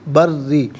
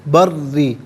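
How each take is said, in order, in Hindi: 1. r ध्वनि दोहरी और रोकी हुई है। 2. r ध्वनि दोहरी और रोकी हुई है।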